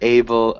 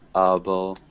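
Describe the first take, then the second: First: The first vowel sounds like 'a'. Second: The first vowel sounds like 'uh'. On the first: The speaker calls it wrong. "Instead of able" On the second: The speaker calls it right. "again, it's able"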